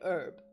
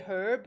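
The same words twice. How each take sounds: First: The word starts without any h sound. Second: The word starts with an audible h sound. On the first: The speaker calls it right. "Without the H" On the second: The speaker calls it wrong. "you don't say herb"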